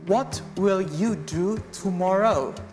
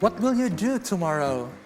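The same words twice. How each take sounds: First: It is said at a slower, careful pace. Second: It is said at a normal, quicker pace.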